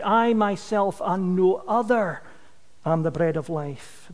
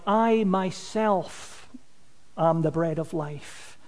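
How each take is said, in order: First: "I myself and no other" driven firmly in one run, then a pause; firm stress through "no other"; more forceful emphasis. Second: "I myself" set apart slowly, then a pause; emphatic "I myself", drawn out before the pause; stress on "I myself". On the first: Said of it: "put more force behind it". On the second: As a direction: lean slowly on "I myself", then let "am the bread of life" fall away. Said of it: "could really be translated like". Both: Shown as a demonstration.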